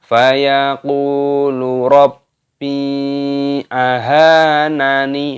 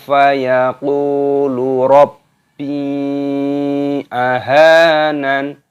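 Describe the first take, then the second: First: The final n is followed by a vowel. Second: The final n is stopped without a vowel. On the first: The speaker calls it wrong. "Jadi salah kalau kita fayaqulu rabbi ahanani. Nah, seperti itu salah" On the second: The speaker calls it right. "ketika berhenti waqaf maka dimatikan"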